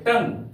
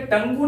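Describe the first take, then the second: First: टंग as one syllable, rhyming with "sung"; correct pronunciation. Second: टंगू as two syllables, tung-goo; wrong pronunciation. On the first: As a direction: end टंग on the ng, with no "oo". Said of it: "इसको पढ़ेंगे टंग". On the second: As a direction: say टंगू with an extra "oo" sounded at the end. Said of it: "टंगू नहीं पढ़ना". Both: Shown as a demonstration.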